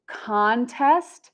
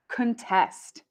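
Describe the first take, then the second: First: Contest as CON-test with rising end; first-syllable stress. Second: Contest as kuhn-TEST, falling; second-syllable stress. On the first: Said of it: "we have contest first". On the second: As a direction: put the weight on TEST in contest. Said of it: "and contest second". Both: Shown as a demonstration.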